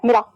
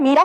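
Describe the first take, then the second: First: मीरा said as mi-ra; short first vowel. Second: मीरा with a held mee; long first vowel. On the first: Teacher showing pupils the other spelling, मीरा with short first vowel. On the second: Teacher showing pupils the right spelling, मीरा with long first vowel. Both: Shown as a demonstration. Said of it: "दोनों में अंतर".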